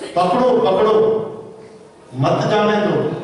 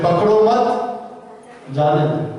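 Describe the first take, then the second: First: The pause comes after 'pakdo'. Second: The pause comes after 'mat'.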